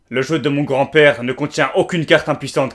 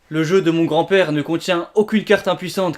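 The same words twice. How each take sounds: First: A bold, confident put-on voice. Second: A shy, timid put-on voice. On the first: "Alors que Yami Yugi, ce sera plutôt" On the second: "La voix de Yugi Muto sera en mode"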